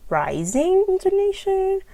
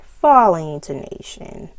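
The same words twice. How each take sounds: First: Rising intonation swept up high and held; rising intonation, loud, pitch soaring. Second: Falling intonation starting loud, sliding down; falling intonation with a downward glide. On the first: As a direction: climb steeply through "rising intonation". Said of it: "use this for intonation". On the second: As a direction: punch "falling", then let intonation drop. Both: Shown as a demonstration.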